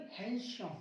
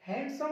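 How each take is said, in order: First: हैंडसम with a silent D, softer; no D in हैंडसम, dropped in volume; correct pronunciation. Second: हैंडसम with the D sounded, higher; raised pitch, D voiced in हैंडसम; wrong pronunciation. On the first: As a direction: say हैंडसम as "han-sum", quieter. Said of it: "हैंडसम नहीं". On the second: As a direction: say हैंडसम wrongly as "hand-some". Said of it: "नहीं". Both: Shown as a demonstration.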